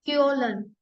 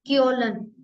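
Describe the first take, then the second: Both takes have the same delivery.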